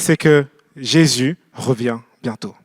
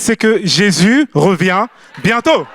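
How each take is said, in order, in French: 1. Cela est dit d'un ton triste et abattu. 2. Cela est dit d'un ton content et joyeux. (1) "La mauvaise nouvelle" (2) "La bonne nouvelle"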